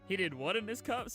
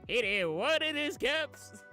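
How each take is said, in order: First: It is said in the speaker's normal voice. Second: It is said in a Southern accent.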